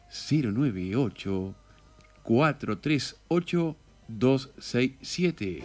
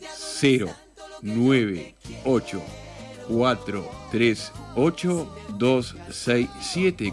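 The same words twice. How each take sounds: First: It is said quietly, in a low voice. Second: It is said slowly, like a robot.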